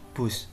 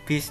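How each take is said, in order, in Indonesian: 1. Kata ini diucapkan dengan vokal u. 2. Kata ini diucapkan dengan vokal i. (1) "bus ini merupakan kata baku" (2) "bis bukan merupakan kata baku"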